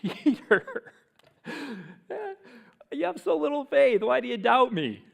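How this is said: It is said in a playful, teasing tone.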